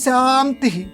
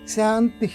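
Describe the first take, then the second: First: It is said loudly. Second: It is said somewhat more softly. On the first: "మొట్టమొదటిదేమో పెద్దదిగా" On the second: "రెండోది కొంచెం తక్కువ స్థాయిలో"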